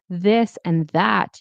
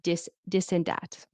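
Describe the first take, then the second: First: The words start with a th sound. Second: The words start with a d sound. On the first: The speaker calls it right. "instead of saying" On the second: The speaker calls it wrong. "you might say dis dis and dat"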